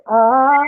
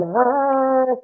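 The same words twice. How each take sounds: First: Sung, demonstrate the note once more; sung, long, high "ah" held in tune; a sung "ah" for someone to copy. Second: Sung, mimicking a friend's off-pitch "ah"; high, held, tuneless attempt at singing; sung, off-key note. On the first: Shown as a demonstration. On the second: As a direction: sing it back and miss the note. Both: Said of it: "Why can't you hear the note?".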